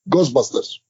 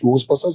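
First: The word is said with a Polish accent. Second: The word is said with its usual pronunciation. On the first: The speaker calls it wrong. "er sagte Ghostbusters. Nach dieser polnischen Art" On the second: The speaker calls it right. "Er sagte nicht Ghostbusters"

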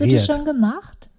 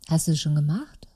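First: It sounds accusing and unpleasant. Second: It sounds friendly and positive.

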